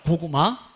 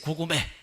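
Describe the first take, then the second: First: The final vowel is an open 'ah' sound. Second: The final vowel is an 'eh' sound. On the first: It is the correct password. The speaker calls it right. "암호가 고구마예요" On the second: The speaker cannot pronounce the password properly. The speaker calls it wrong. "발음을 잘 못하는 사람이었습니다"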